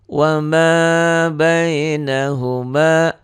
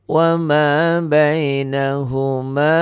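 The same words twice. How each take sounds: The two takes are said the same way.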